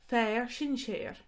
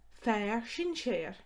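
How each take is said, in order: Both takes have the same delivery.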